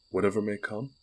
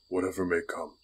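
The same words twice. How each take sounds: First: WHATEVER MAY COME lifted into a question, rising at the end; searching question on "Whatever may come", end left raised. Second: WHATEVER MAY COME as a settled statement, no final rise; steady confirmation on "Whatever may come", closed at the end; affirming. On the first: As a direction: ask "Whatever may come" as a test, voice going up. Queen tests the knight's oath. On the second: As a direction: answer "Whatever may come" evenly, as a vow. Knight answers, confirming the oath. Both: Acted.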